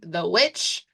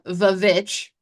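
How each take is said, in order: First: The word begins with a W sound. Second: The word begins with a V sound.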